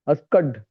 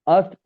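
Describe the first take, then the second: First: The k and a final d are both pronounced. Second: The k is dropped and it ends in t. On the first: The speaker calls it wrong. "तो बोल पा रहा है अस्कड" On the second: The speaker calls it right. "उन्होंने बोला के को उड़ा दो, आस्क, और ड भी नहीं, सीधा ट कर लो"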